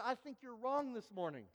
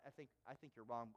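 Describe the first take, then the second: First: Confident, matter-of-fact retort; firm and certain correction; sure of himself. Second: Hushed, faster, losing nerve; shaky denial, voice dropping away; mild retold panic, quiet and hurried; panicky. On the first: Retold or imitated. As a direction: brush it off as a mix-up. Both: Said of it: "So I, I start to panic".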